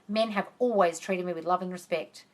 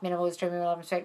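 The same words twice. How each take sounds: First: It is said firmly, with authority. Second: It is said weakly, without conviction.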